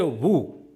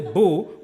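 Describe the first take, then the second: First: The syllable begins with a w sound. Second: The syllable begins with a b sound. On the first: The speaker calls it right. "we say woo" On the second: The speaker calls it wrong. "we don't say boo"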